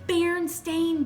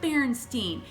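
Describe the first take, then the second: First: The name ends with a 'stain' sound. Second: The name ends with a 'steen' sound. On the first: The speaker calls it right. "It's actually Berenstain Bears" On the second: The speaker calls it wrong. "Not Berenstein"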